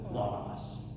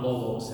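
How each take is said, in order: First: The first vowel sounds like 'ah'. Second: The first vowel sounds like 'oh'. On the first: The speaker calls it right. "it's logos, is the way that I was taught" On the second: The speaker calls it wrong. "it's not logos"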